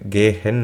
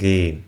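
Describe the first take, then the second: First: The h sound is pronounced in the middle. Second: The h sound is silent in the middle. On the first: The speaker calls it wrong. "ഗേ ഹെൻ എന്നല്ല" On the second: The speaker calls it right. "അവിടെ എച്ച് silent ആയിരിക്കും"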